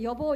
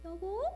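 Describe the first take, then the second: First: The voice sounds old, low and tired. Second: The voice sounds young, high and bright. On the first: The speaker calls it wrong. "이렇게 하지 말고" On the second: The speaker calls it right. "이렇게 하면서 아가씨처럼 내라고"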